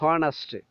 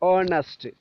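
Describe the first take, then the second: First: The word begins with an h sound. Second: The word begins directly with a vowel. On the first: The speaker calls it wrong. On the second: The speaker calls it right.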